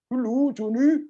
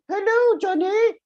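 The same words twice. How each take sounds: First: A hesitant, wavering, unsure-sounding voice. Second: A high, small, squeaky voice. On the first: "This one sounds a little bit uncertain" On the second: "if I make it a little bit higher, it could be a mouse"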